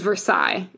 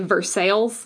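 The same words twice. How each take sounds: First: The name is said in its general pronunciation. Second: The name is said in the local Ohio pronunciation. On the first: The speaker calls it right. "is how you say it" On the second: The speaker calls it wrong. "you say Versailles in Ohio, which I hate"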